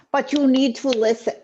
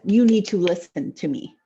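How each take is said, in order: First: Higher, forceful attempt at an Italian mafia accent. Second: Said in the usual way. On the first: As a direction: take a rough stab at an Italian mobster accent. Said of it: "typical Italian mafia guy". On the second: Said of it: "I can't do an accent".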